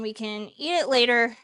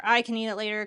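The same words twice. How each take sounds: First: Said in the usual way. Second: "I" picked out, the rest falling away; stress on I. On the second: Real, not acted. Cook corrects who will eat the soup later, stressing "I".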